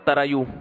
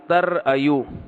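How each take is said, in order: First: The syllables run together with no glottal stop. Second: A glottal stop separates the syllables. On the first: "इसको पढ़ते हैं तरायू" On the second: "असल में था तर अय्यू"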